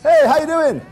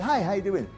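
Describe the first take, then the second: First: It is said with big, cheesy enthusiasm. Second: It is said warmly but toned down.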